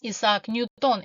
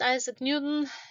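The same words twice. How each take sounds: First: The name is said with a Russian pronunciation. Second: The name is said with an English pronunciation.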